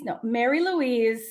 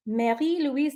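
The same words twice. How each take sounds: First: Said in the usual way. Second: Mary Louise in a French accent, Louise as "lweez"; light put-on French name; playful French accent; mock French accent. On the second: Shown as a demonstration. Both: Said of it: "I said it with a weird accent".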